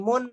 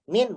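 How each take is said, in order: First: The vowel is an 'u' sound. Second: The vowel is an 'i' sound. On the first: The speaker calls it wrong. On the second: The speaker calls it right.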